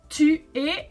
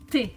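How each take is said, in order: First: Both vowels are said as two full syllables. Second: The vowel is cut, squeezing it into one syllable. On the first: "tu es is quite long to say" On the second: "often pronounced orally te, like this"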